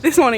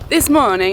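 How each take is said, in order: First: It is spoken with a neutral accent. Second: It is spoken with an Italian accent.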